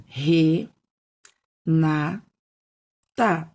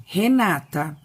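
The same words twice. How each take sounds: First: "re, na, ta" as separate syllables, long pauses between. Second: Said in the usual way. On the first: Shown as a demonstration. Teacher splitting a name to count syllables, "re, na, ta" slowly separated. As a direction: break it into "re", "na", "ta", each on its own. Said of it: "Três sílabas". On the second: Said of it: "essas palavras são separadas em sílabas".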